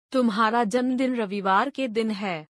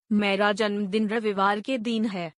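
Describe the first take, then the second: First: दिन with a short i, "din"; correct दिन. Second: दिन with a long ee, like "deen"; mispronounced दिन. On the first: Mother corrects child, saying दिन with short i. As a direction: keep the vowel in दिन short. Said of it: "दोनों के उच्चारण और अर्थ अलग हैं". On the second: Child tells mother the birthday, दिन mispronounced as "deen". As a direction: stretch the vowel of दिन into "deen". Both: Shown as a demonstration.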